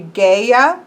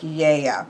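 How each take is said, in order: First: The word begins with a hard G sound. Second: The word begins without any hard G sound. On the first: "Technically, it should be Gaia" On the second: "in Greek, it would be more Yea. ... there's not a G sound there"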